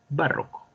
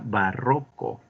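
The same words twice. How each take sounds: First: The stress is not on the middle syllable. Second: The stress is on the middle syllable. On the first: The speaker calls it wrong. "no barroco" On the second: The speaker calls it right. "se pronuncia barroco ... Es grave"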